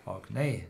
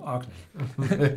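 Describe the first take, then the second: First: Orkney with the weight moved to the end, ork-NEY; lower-pitched ork-NEY, stressing the last syllable; stress on second syllable. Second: Orkney corrected to ORK-ney, stress at the front; slow ORK-ney, weight on the first syllable. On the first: Trying out the island's name, Orkney stressed as ork-NEY. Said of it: "no, Orkney". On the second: Correcting own pronunciation of the islands, stress on ORK in Orkney. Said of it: "pronounced on the first syllable". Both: Shown as a demonstration.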